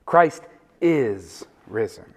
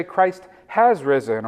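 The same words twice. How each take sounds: First: Slow and low, "is" drawn out alone; stress on IS. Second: Slowed down, with "has" picked out; stress on HAS. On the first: Preacher restores the Easter tradition, stress on IS. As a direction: give "is" its own long beat, falling on "risen". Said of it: "put the emphasis on the is". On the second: Quoting people who correct the greeting, stress on HAS. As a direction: lean on "has" as the corrected word. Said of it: "where people try to correct it". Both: Shown as a demonstration.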